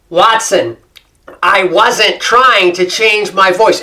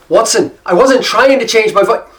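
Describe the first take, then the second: First: It is spoken with an American accent. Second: It is spoken with an Irish accent. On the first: The speaker is deliberately restoring the original accent. "I actually concentrated to try to get this kind of American accent back" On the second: The speaker has unconsciously absorbed the local accent. "I had started to pick up the brogue, the accent"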